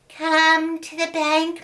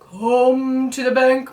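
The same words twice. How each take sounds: First: The voice is high and fine. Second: The voice is low and deep. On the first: The caller sounds like a loving mother. "called out with her new voice" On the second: A dangerous creature is calling. "called out in her deep voice"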